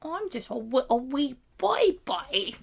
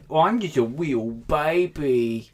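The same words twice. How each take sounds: First: Put-on slow, high British-tinged baby voice; baby voice sliding British. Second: Put-on slow, high babyish whine. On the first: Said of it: "it turned British a little at the end". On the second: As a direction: coo like a little baby. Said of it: "that's my baby voice".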